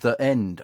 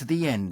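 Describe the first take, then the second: First: 'The' is said with a short 'thuh' sound. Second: 'The' is said with a long 'thee' sound. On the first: The speaker calls it wrong. "my eight-year-old daughter keeps saying" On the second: The speaker calls it right. "before a vowel, it becomes"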